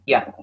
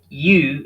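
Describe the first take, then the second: First: The word has a reduced vowel. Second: The word has a full vowel.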